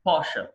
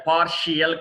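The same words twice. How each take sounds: First: పార్షల్ in two syllables; correct pronunciation. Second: పార్షియల్ in three syllables; wrong pronunciation. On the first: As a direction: say పార్షల్ as "PAR-shul". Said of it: "పార్షియల్ కాదు". (పార్షల్ "పార్-షల్" అని) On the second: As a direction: say పార్షియల్ as "par-shi-yal". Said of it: "కాదు". (పార్షియల్ "పార్-షి-యల్" అని తప్పుగా) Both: Shown as a demonstration.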